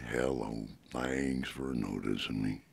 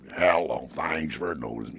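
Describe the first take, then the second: First: The voice is warmer and softer at the edges. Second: The voice is sharp, harsh and strident. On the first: "warm him up a little bit and give him a little more softer edge" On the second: "He was a little more strident"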